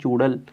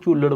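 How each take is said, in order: First: The r sound comes first and the word ends in l. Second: The l sound comes first and the word ends in r. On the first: The speaker calls it right. "ਇੱਥੇ ਲਿਖਿਆ ਹੋਇਆ ਪਿੰਡ ਦਾ ਇਹ ਨਾਂ ਹੈ ਚੂੜਲ" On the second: The speaker calls it wrong. "ਪਰ ਲੋਕ ਉਹਨੂੰ ਚੂਲੜ ਬੋਲਦੇ ਨੇ"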